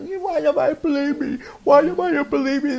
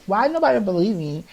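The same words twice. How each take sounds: First: Put-on high, pleading British-accented cry of why nobody believes him; imitating himself as a boy begging in British tones; mock British crying plea. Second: Said in the usual way. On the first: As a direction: whine it in a put-on British voice, much higher. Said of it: "I was speaking British". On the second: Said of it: "I was literally crying myself".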